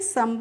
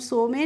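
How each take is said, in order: First: It is said as one syllable, sum. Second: It is said as two syllables, so-me. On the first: The speaker calls it right. "सम पढ़ते हैं" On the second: The speaker calls it wrong. "सो में नहीं पढ़ते हैं"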